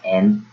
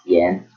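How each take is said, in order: First: The word begins directly with a vowel. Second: The word begins with a y sound. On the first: The speaker calls it right. "it's pronounced en" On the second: The speaker calls it wrong. "not yen"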